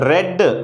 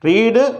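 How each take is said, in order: First: The vowel is a short e sound. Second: The vowel is a long ee sound. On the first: It is the past tense. "Pronunciation మాత్రం ఇక్కడ రెడ్ అని చదవాల్సి ఉంటుంది" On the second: It is the present tense. "రీడ్ అంటే చదవటం"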